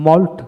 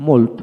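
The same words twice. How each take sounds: First: মল্ট with an open "aw" vowel; American মল্ট for learners to copy; American pronunciation drill. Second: মোল্ট with a rounded "oh" vowel; British মোল্ট for learners to copy; British pronunciation drill. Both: Shown as a demonstration. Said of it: "এইভাবে দুইটা উচ্চারণে পড়াবেন".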